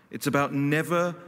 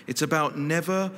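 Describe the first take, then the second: No difference in how they are said.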